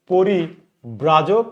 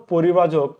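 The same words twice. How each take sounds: First: পরিব্রাজক spoken very slowly, each syllable drawn out; slow dictation. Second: Said in the usual way. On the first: Shown as a demonstration. Teacher dictating a word to students, very slowly. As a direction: spell out পরিব্রাজক at a crawl.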